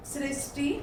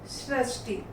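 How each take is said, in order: First: सृष्टि as "sris-ti", clear "i"; mispronounced. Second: Said in the usual way. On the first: Shown as a demonstration. Teacher reads the error list, mispronounced सृष्टि as "sristi". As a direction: say सृष्टि with a plain "s" before "ti". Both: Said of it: "बोलने में हम कुछ और बोलते".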